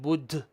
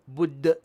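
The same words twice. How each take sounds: First: The final d ends with escaping air. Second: The final d ends with a bouncing sound. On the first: The speaker calls it wrong. "not bud with the air" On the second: The speaker calls it right. "we don't let air escape. Instead, we we make a sound"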